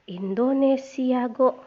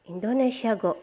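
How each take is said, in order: First: Slow, with the syllable go held out and leaned on; slow model read with go stressed. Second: Said in the usual way. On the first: Shown as a demonstration. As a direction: drag out Indonesia go and land hard on go. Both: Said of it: "Contohnya misalkan".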